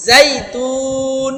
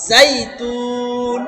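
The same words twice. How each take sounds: First: জাইতুন slow, teeth set first, then the buzz; slow model of জাইতুন for the class. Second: জাইতুন slow, teeth together for a buzzing z; drawn-out recitation. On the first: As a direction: recitation model. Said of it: "আগে দাঁত লাগায় আওয়াজ হবে". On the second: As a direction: hold the z on জাইতুন. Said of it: "এবার দাঁত লাগবে". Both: Shown as a demonstration.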